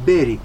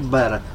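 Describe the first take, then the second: First: The word ends with an i sound. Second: The word ends with an e sound. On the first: This is the local regional form. The speaker calls it right. "zice beri, că suntem moldoveni" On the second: This is the standard form not used locally. The speaker calls it wrong. "nu se spune la Focșani, zice bere"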